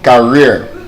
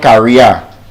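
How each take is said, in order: First: The second syllable uses the ear vowel. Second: The second syllable does not use the ear vowel. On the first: The speaker calls it right. "It's ear, career" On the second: The speaker calls it wrong. "the word is not career"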